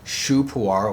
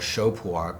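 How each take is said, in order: First: The first word sounds like shoo. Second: The first word sounds like show. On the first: This is the form used by farmers in Yunnan. "I tend to use shu because that's what the farmers in Yunnan say" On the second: This is the form used in Eastern China. "in Eastern China, when referring to pu'er, they do say shou"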